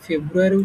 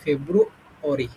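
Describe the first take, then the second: First: The word ends with a 'yari' sound. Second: The word ends with an 'ori' sound. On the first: The speaker calls it wrong. "আমরা যেটা ফেব্রুয়ারি উচ্চারণ করতাম, এটা ফেব্রুয়ারি না" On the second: The speaker calls it right. "এটা হচ্ছে ফেব্রুঅরি, শেষে হলো অরি"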